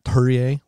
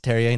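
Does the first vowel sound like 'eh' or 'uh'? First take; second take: uh; eh. First: The first vowel sounds like 'uh'. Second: The first vowel sounds like 'eh'. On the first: The speaker calls it wrong. "like there's a U in there" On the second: The speaker calls it right. "it's Terrier"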